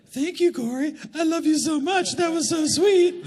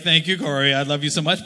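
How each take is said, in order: First: Little voice. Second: Said in the usual way. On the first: Retold or imitated. Husband mocking his wife's thanks in a high sweet voice. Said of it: "then I would do this little voice". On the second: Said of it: "And then she'd be like".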